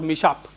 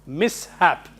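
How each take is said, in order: First: The s and h merge into one 'sh' sound. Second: The s and h are said as separate sounds. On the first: The speaker calls it wrong. "not mishap" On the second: The speaker calls it right. "It should be pronounced mishap"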